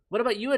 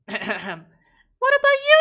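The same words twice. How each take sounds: First: It is said in a normal speaking voice. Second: It is said in a put-on character voice.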